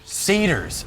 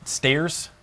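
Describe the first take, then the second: First: The word is said with two syllables, 'sa-tyrs'. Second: The word is squeezed into one syllable, like 'stairs'. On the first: The speaker calls it right. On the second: The speaker calls it wrong.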